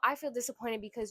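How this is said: The tone is nagging and complaining. It nags and attacks the other person. The speaker calls it wrong. "when you switch the tone"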